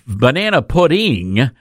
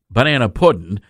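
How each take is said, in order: First: The word ends with a g sound. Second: The word ends without a g sound. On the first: It is not authentically Southern. The speaker calls it wrong. "that means that it's not authentically Southern" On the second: It is authentically Southern. The speaker calls it right. "That's P-U-D-D-I-N"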